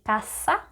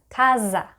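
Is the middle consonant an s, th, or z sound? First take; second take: s; z. First: The middle consonant is an s sound. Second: The middle consonant is a buzzing z sound. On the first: The speaker calls it right. "people from Latin America, we say casa" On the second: The speaker calls it wrong. "people pronounce this word as casa, but really this sound does not exist in Spanish"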